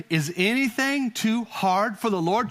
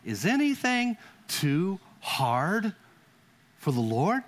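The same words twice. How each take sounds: First: Preacher repeats the key line to the church; said again for emphasis. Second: Slow, drawn-out voice of God asking; God's question. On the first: Shown as a demonstration. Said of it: "I'll say it again". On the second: Acted. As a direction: ask it slowly as God speaking to Sarah. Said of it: "He said".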